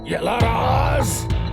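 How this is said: It is said in a deep bass voice.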